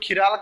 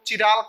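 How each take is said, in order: First: It begins with a kh sound. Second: It begins with a ch sound. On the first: "कुछ लोग खिराल carbon पढ़ते हैं" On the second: "कुछ लोग चिराल carbon पढ़ते हैं"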